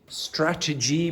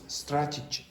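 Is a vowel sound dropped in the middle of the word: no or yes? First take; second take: no; yes. First: Every vowel sound in the word is pronounced. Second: One vowel sound in the middle is dropped.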